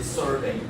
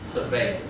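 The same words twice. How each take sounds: First: The stress is on the first syllable. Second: The stress is on the second syllable. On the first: "you can put it on the first syllable" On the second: "if you use it as a verb, because it's survey"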